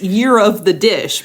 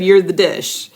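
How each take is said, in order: First: The phrase is said at a normal, careful pace. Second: The phrase is said fast and run together.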